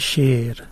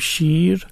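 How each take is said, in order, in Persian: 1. با لهجه افغانی یا تاجیکی گفته شده. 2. با لهجه فارسی ایران گفته شده. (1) "اونا میگن شیر" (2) "ما میگیم شیر"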